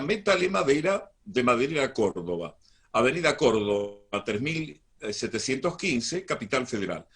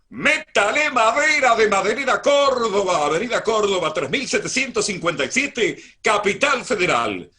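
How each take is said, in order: First: It is read quickly without projecting the voice. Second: It is read with an even higher, louder voice.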